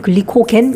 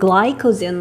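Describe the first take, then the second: First: It is pronounced with Korean sounds. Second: It is pronounced with English sounds. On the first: "우린 글리코겐 이렇게 보통은 발음을 하지" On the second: "영어로는 glycogen 뭐 이렇게 읽어"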